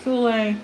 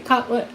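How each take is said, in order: First: The first syllable sounds like 'cool'. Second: The first syllable sounds like 'cut'. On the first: The speaker pronounces it this way. "I say" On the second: Other people pronounce it this way. "Some people say"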